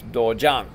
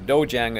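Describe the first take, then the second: First: "dojang" with an open AH, daw-JAHNG; correct Korean pronunciation. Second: "dojang" as twangy DOH-jayng; Southern twang. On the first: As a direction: say "dojang" without twang, rhyming jang with "song". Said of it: "correct, uh, uh, pronunciation". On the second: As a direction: mimic an Alabama twang on "dojang". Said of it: "twang, and it's not dojang". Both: Shown as a demonstration.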